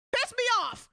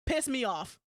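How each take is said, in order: First: Much higher and louder, exasperated; mock outburst. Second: Said in the usual way. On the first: Shown as a demonstration. Ranting about people's logic, now a loud exasperated outburst. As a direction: blow up at it the second time.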